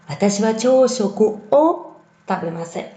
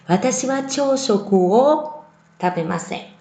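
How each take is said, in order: Both takes have the same delivery.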